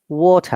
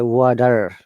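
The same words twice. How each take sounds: First: The T is a clear, strong T sound. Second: The T sounds like a soft D flap. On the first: "the same word" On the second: "they will say water. Yeah, T sounds like D"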